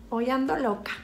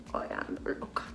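First: Said in the usual way. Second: Whispered repeat. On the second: Shown as a demonstration. Repeating her line to viewers: whispered echo. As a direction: repeat it under her breath.

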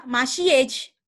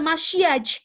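First: "masyej" said with an e sound after sy as the wrong version; mock mistaken "masyej" ending in -syej; wrong reading. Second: "masyaj" said with a clear a after sy; correct reading. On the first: Teacher to students showing the wrong reading, careful wrong demo. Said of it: "dia nggak dibaca". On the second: Teacher to students giving the correct reading, clear model. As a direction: model the right "masyaj" with an open a. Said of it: "Tapi dia dibaca adalah". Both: Shown as a demonstration.

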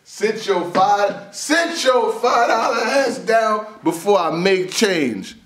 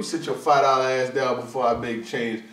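First: High, loud and slow with a laugh, punching every word; mock Danny comeback. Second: Said in the usual way. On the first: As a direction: deliver the New Jack City line, slowly, half laughing. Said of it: "Danny said". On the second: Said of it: "Told you".

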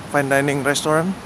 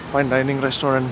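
The two takes are said the same way.

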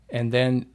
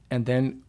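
No difference in how they are said.

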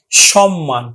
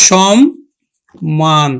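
First: Said in the usual way. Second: সম্মান very slow, lower, split shom, pause, man; syllable-by-syllable pronunciation. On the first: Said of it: "আমরা উচ্চারণ করছি". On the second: Shown as a demonstration. Teacher demonstrating how we will pronounce it, সম্মান slowly broken in two. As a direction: sound each m of সম্মান in separate halves. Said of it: "আমরা উচ্চারণ করব কিন্তু".

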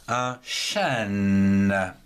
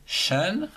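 First: Chêne held long and low; drawn-out word. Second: Said in the usual way. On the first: Shown as a demonstration. Teacher writing up the name of a tree, drawn out. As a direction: stretch chêne out, sinking in pitch onto a long n.

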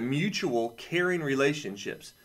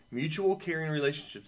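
First: Slow, deliberate reading. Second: Said in the usual way. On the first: Shown as a demonstration. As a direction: read slowly, weighing each word. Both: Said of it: "I'll read this to you this way".

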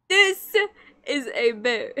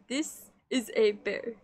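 First: Mock-tearful insistence, punching "This"; emphatic insistence. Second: Said in the usual way. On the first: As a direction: insist on "This" with fake tears. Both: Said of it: "See, look, it says it right here".

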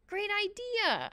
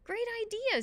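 First: High, slow squeak. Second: Put-on high, excited boy; eager agreement. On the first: Boy hanging in the tree agrees, squeaking. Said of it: "I squeaked". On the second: Calvin takes off after Annabelle, eagerly excited. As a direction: jump on the idea, pitch way up. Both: A narrator's reading.

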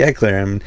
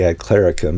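First: "clerum" said in two syllables, CLE-rum; correct Latin clerum. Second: "clericum" said with three syllables, CLER-i-cum; extra syllable in clericum. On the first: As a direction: say "clerum" with no middle "i". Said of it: "that's not right in the original Latin". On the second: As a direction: say "clericum" with an added middle "i". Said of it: "apparently that's not right in the original Latin". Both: Shown as a demonstration.

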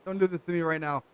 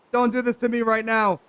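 First: Said in the usual way. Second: Louder, higher plea in real frustration; exasperated protest. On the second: Real, not acted. Player begging the glitched game to behave, exasperated. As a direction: raise your voice at the game. Pleading with the broken game, escalating.

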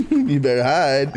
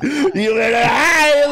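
First: Said in the usual way. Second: Drawn-out taunting shout; slow shout. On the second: Acted. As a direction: slowly yell it as a taunt.

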